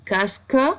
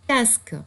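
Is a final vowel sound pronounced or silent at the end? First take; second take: pronounced; silent. First: A final e vowel is sounded after the k. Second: The word ends on the k, no final vowel. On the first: "si tu as un accent bien prononcé" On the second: "quatre sons"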